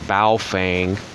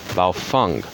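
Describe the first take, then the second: First: The 'feng' sounds unlike the 'feng' in feng shui. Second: The 'feng' sounds like the 'feng' in feng shui. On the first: The speaker calls it wrong. "or Baofeng" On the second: The speaker calls it right. "This is the same feng. It's the same pronunciation"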